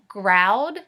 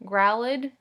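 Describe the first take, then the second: First: "Growled" in one syllable ending in a plain d, louder, rising; right try. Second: "Growled" split into two syllables, grow-led, ending in a questioning rise; wrong try. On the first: Teacher finds the right ed ending with the class. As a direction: land on the right sound and check it. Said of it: "Yeah, it does". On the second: Teacher tries a wrong ed ending before first graders. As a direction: sound it out the wrong way, doubtfully. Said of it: "Let's try it another way". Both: Shown as a demonstration.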